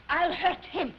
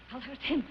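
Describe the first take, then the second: First: Firm, emphatic threat; theatrical vow of payback; vengeful vow. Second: Lower, softer threat; quiet, scheming menace; brooding vow. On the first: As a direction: declare revenge with resolve. Vows revenge, then repeats it brooding. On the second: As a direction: say it to yourself, plotting. Repeats the vow to herself. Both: Acted.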